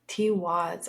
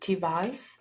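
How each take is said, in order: First: The middle consonant is a w sound. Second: The middle consonant is a v sound. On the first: The speaker calls it right. "I've been saying that wrong" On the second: The speaker calls it wrong. "they pronounce W's as V's"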